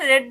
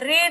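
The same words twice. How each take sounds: First: The vowel is short, like in red. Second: The vowel is long, like in reed. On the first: The speaker calls it right. "read ன்னு சொல்லணும்" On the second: The speaker calls it wrong. "read ன்னு சொல்லாம"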